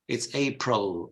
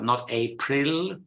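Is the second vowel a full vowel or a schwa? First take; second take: schwa; full vowel. First: The second vowel is a schwa. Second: The second vowel is a full vowel. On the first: The speaker calls it right. "April with a schwa" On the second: The speaker calls it wrong.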